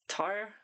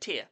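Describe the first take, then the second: First: The name is said with an American-sounding accent. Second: The name is said without an American-sounding accent.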